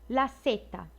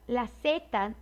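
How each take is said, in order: No difference in how they are said.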